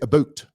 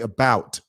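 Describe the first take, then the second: First: It is said with a Canadian vowel sound. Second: It is said with an American vowel sound. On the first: "They say about" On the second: "They don't say about"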